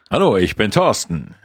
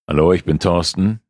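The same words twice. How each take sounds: First: It is said with lively, dynamic energy. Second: It is said with calmer, less dynamic energy.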